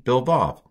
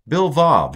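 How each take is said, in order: First: "Bil Vav" with Vav stressed and falling; stress on second word. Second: "Bil Vav" with Bil stressed, high and loud; stress on first syllable. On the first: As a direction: land on "Vav". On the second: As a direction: hit "Bil" hard and drop on "Vav". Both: Shown as a demonstration. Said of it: "don't bill me".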